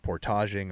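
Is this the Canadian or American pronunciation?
Canadian. It is said with a Canadian pronunciation.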